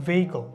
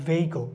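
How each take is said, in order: No difference in how they are said.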